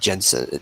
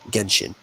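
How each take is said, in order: First: The word begins with a soft J sound. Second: The word begins with a hard G sound. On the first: The speaker calls it wrong. "Not not like Jensen" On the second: The speaker calls it right. "It's a hard G"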